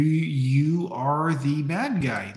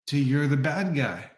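First: "you are the bad guy" spaced out slowly, every word leaned on; slow emphatic restatement. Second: Said in the usual way. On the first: Shown as a demonstration. Comic drills it into the listener, slow and emphatic.

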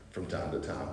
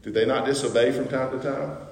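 First: "From time to time" dropped much lower and softer, wry; understated aside. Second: Said in the usual way. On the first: Shown as a demonstration. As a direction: throw it away under your breath. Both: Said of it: "I'm understating it".

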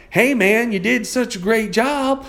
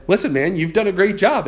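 First: Put-on high, drawn-out South Carolina accent; butchered imitation of a Southern coach's twang. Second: Said in the usual way. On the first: Coach praising his student's homework, in a Southern twang. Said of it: "a little swang and twang in his voice". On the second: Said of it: "when my coach said".

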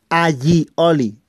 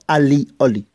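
First: "aioli" slow, split as a-yi, oli; correct pronunciation. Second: "alioli" slow, split as a-li, oli; wrong pronunciation. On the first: Teacher showing how it is pronounced, slow and careful. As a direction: say "aioli" syllable by syllable with a y sound. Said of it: "Pero se pronuncia". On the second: Teacher showing what not to say, slow mispronunciation. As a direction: say "alioli" syllable by syllable with a plain L. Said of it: "no alioli". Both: Shown as a demonstration.

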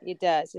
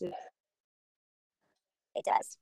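First: Said in the usual way. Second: Breathy whisper, no voice. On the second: Shown as a demonstration. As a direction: whisper it to the child.

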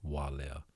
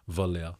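First: Walea said softly with a clear W; careful correct take. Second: Valea blurted with a V and a short first vowel; slipped wrong take. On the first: Shown as a demonstration. Host trying the Hawaiian name correctly for listeners, soft. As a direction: land Walea right with a W. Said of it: "I'm gonna try and say it like that now". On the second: Real, not acted. Host mangling the Hawaiian name again, quick slip. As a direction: fall back into Valea with a V. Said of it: "I just can't say it right".

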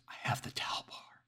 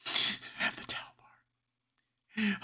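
First: Soft breathy whisper. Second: Very high, slow, strangled whisper; strained terrified whisper. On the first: Hiding caller telling the dispatcher her weapon, whispering. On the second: Caller repeating her weapon to the dispatcher, terrified whisper. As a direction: whisper it as panic takes over. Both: Acted.

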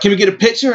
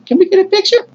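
First: Said in the usual way. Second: Starstruck, disbelieving squeak; incredulous echo. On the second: Retold or imitated. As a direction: voice climbing very high in disbelief. Fan echoes hero's request in disbelief.

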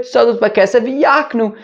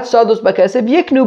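First: Yaknu with an open a first; yak- reading. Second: Yiknu with a short i first; yik- reading. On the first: Teacher shows the reinterpreted reading, Yaknu as YAHK-nu. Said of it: "darshan it". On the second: Teacher shows the reading to reject, Yiknu as YIK-nu. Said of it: "darshan it, not". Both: Shown as a demonstration.

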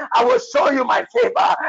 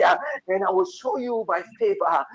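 First: Rising fervor. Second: Said in the usual way. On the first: Real, not acted. Prophet building the promise of favor, rising fervor. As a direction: lift it higher each time. Third take, higher climax.

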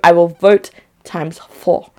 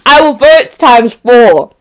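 First: Said in the usual way. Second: I will vote times four, louder and slowly; each word hammered for emphasis; emphatic repeat. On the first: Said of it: "repeated emphatically". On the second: Real, not acted. A viewer declares she will vote him out, louder and slower. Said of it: "repeated louder".

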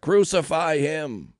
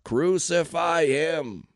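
First: Slow, loud, high mob cry; shouted back. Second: Drawn-out, loud, high roar; mob roar. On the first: Crowd demanding execution from Pilate, shouting back. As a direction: shout it out slowly, hammering each word. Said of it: "They shouted back". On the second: Mob drowning out Pilate's question, roaring. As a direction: roar it very slowly, stretching each word. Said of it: "the mob roared even louder". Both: A narrator's reading.

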